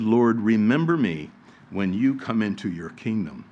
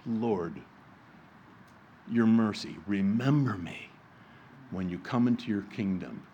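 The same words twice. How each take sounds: First: Said in the usual way. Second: A dying thief's whispered-soft plea to his Lord; simple plea. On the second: Acted. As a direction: beg quietly for mercy. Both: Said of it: "It was a simple plea".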